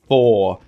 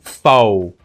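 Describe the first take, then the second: First: The word has standard American pronunciation. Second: The word sounds like faux. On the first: This is the usual American pronunciation. "Faux shots instead of 4" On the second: This is how the man in the clip said it. "So he said like faux"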